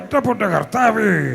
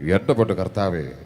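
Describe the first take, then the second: First: A put-on voice that sounds comic. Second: A put-on voice that sounds menacing. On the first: The character is a comedian. "Comedian ആയപ്പോ ആ ശബ്ദ വ്യത്യാസം" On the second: The character is a villain. "Villain കഥാപാത്രമായപ്പോൾ ഉള്ള ശബ്ദം"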